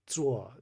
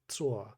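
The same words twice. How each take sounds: No difference in how they are said.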